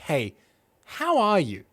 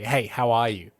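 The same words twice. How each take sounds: First: It sounds like a sincere, caring question. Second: It sounds like a casual, throwaway greeting.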